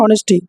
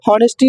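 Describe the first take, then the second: First: The word begins with a vowel, no h sound. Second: The word begins with an audible h sound. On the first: The speaker calls it right. "एच silent होता है, ऑनेस्टी बोलते हैं" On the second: The speaker calls it wrong. "हॉनेस्टी नहीं होता है"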